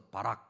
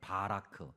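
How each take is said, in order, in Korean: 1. 단어를 빠르게 발음해서 자음으로 끝나요. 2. 단어를 끝까지 다 발음해서 모음으로 끝나요.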